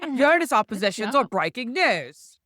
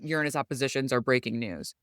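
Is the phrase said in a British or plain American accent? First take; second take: British; plain American. First: It is said in a put-on British accent. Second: It is said in the speaker's ordinary accent.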